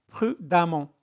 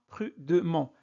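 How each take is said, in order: First: The vowel before -ment sounds like 'a'. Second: The vowel before -ment sounds like 'e'. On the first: The speaker calls it right. "Ça se prononce amont" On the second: The speaker calls it wrong. "Ne prononcez pas prudemment"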